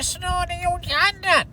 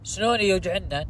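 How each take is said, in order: First: It is said in a pinched, nasal put-on voice. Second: It is said in a normal, open voice.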